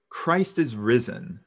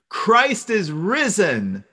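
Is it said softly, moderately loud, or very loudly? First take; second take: softly; very loudly. First: It is said at the softest level. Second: It is said at the loudest level.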